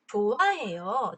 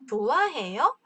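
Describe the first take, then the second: First: The pitch falls at the end. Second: The pitch rises at the end. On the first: It is a statement. "평서문" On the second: It is a question. "의문문"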